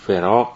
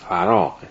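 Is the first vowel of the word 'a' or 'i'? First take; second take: i; a. First: The first syllable is said with an 'i' vowel. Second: The first syllable is said with an 'a' vowel. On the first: The speaker calls it wrong. "اونم فراغ نیست" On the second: The speaker calls it right. "تلفظ درستش اینه"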